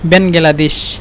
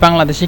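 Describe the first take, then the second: First: The name is said as four syllables, Ben-ga-la-desh. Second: The name is said as three syllables, Bang-la-desh. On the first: The speaker calls it right. "এভাবে আপনারা উচ্চারণ করবেন।" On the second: The speaker calls it wrong. "এখানে বাংলাদেশ চলে আসছে ডাইরেক্ট"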